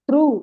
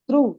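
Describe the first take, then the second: No difference in how they are said.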